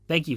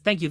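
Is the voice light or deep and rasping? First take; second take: deep and rasping; light. First: It is said in a deep, rasping voice. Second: It is said in a light princess voice.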